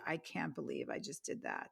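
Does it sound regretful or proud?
regretful. It sounds regretful and embarrassed.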